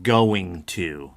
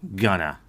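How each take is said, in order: First: Both words are said fully and clearly. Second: The words are squeezed together into a short form. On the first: "instead of going to" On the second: "they'll say gonna"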